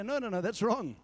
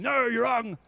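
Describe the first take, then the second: First: Soft, quieter correction; a gentle, caring no; gently. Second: A mild mock shout of correction; shouting them down. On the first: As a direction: correct them kindly, no edge. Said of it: "So I do it gently". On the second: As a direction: tell them off to their face. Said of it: "I don't go and shout at them". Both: Shown as a demonstration.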